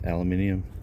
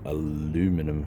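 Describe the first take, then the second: First: It is said in the non-American way. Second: It is said in the American way.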